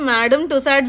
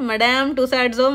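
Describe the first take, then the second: First: The first word sounds like English 'madam'. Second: The first word sounds like French 'madame'. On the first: "నేనైతే అనుకోవడం మేడమ్ Tussauds అనే అనుకుంటున్నాను" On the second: "మడామ్ టుసాడ్సో మరి ఏంటో తెలియదు"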